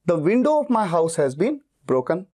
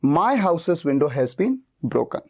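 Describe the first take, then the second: First: Slow, window leaned on; stress on window. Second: Very slow, my leaned on; stress on my. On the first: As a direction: slowly hit window. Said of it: "मेरा focus खिड़की पे ज्यादा है". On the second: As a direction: hit my, drawn out. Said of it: "मेरा focus मेरे घर पे है". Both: Shown as a demonstration.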